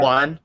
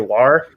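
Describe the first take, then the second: First: It ends plainly on N, Sichuan style. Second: It ends with an R sound, Northeastern style.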